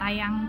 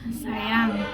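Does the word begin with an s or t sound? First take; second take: t; s. First: The word begins with a t sound. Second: The word begins with a clear s. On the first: The speaker calls it wrong. "jangan tayang" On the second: The speaker calls it right. "harus jelas penyampaiannya"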